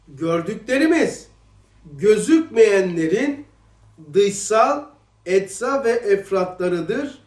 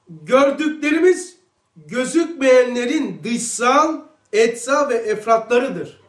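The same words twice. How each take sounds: First: The sentence is read at a slow pace. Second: The sentence is read at a normal pace.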